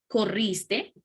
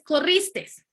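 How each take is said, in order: First: "Corriste" said plainly with no final s; correct corriste. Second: "corristes" said high with a final s; wrong corristes. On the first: Teacher gives students the correct form, no final s. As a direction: say "Corriste" clean without the s. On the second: Teacher voices the wrong form for students, extra s. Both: Shown as a demonstration. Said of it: "está mal dicho".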